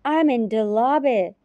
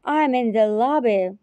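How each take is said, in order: Both takes have the same delivery.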